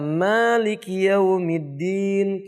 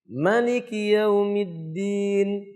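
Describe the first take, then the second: First: The first vowel of Maliki is held long. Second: The first vowel of Maliki is kept short.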